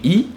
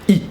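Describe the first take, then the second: First: The vowel is held longer. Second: The vowel is cut shorter. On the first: The speaker calls it wrong. "instead of saying E" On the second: The speaker calls it right. "do it a bit shorter"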